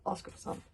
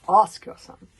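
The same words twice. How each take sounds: First: Said in the usual way. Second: Much louder shouted demand; loud accusing repeat. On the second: A narrator's reading. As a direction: hurl it at him.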